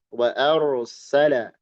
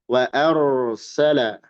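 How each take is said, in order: The two takes are said the same way.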